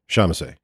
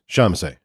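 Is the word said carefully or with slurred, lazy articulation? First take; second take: slurred; slurred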